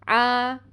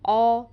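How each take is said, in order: First: The vowel is open, like 'ah'. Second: The vowel is rounded, like 'aw'. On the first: The speaker calls it right. "मुँह को खोलें" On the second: The speaker calls it wrong. "जब आप बंद करेंगे तो ऐसी आवाज़ आएगी"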